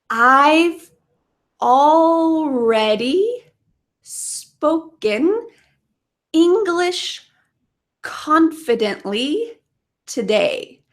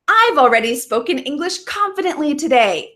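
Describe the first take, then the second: First: The sentence is spoken at a slow pace. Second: The sentence is spoken at a fast pace. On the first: "Let's say it slowly and focus on pronunciation" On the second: "So let's say this quickly together a couple times"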